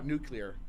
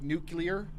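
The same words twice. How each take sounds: First: No extra syllable is added in the middle. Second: An extra syllable is added in the middle. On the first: The speaker calls it right. "I'll like correct myself" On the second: The speaker calls it wrong. "I say that wrong sometimes"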